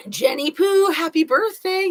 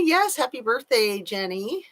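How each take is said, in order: First: High, bright birthday call; cheerful high birthday wish; sing-song greeting. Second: Said in the usual way. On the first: Real, not acted. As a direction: sing it out to a friend, higher and louder.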